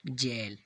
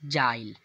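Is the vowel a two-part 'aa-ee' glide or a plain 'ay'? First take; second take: plain ay; aa-ee glide. First: The vowel is a plain 'ay' sound. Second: The vowel is an 'aa-ee' glide. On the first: The speaker calls it right. "यही हमारा शुद्ध शब्द है।" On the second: The speaker calls it wrong. "लेकिन यह गलत है।"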